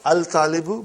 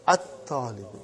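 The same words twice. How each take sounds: First: Al-talibu, the l sounded before the t; wrong form with lam. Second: At-talibu, no l, the t doubled; correct sun letter form. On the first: Teacher contrasting for the class: al-talibu with the l sounded. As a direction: say al-talibu with a clear l, as the mistake. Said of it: "Not al-talibu". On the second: Teacher correcting the class: at-talibu with a doubled t. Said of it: "but at-talibu". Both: Shown as a demonstration.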